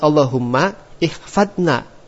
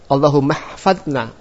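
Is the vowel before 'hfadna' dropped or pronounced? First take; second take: pronounced; dropped. First: The vowel before hfadna is pronounced separately. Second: The words link with no vowel before hfadna. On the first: The speaker calls it wrong. "Jangan Allahumma ihfadna. Itu salah" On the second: The speaker calls it right. "hamzah wasal itu enggak kita baca"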